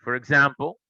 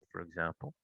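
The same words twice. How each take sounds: First: Said in the usual way. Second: Softer repeat. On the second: Real, not acted. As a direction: drop the repeat almost to nothing. Repeats phrase, second softer.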